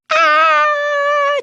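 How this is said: The cry is one clear pure note.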